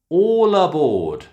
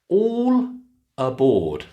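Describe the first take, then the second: First: The L runs into the next word. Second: The two words are said separately.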